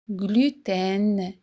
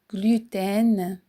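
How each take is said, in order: First: The ending has a clearly sounded N consonant. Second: The ending has a clearly sounded N consonant.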